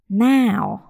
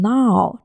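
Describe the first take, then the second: First: The vowel is the English-style ow sound. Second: The vowel is the Mandarin-style ow sound. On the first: The speaker calls it right. "注意这个now 的发音应该是ow" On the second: The speaker calls it wrong. "大家千万不要发成了中文普通话里面那个ow 的音变成now，这样就很难听了"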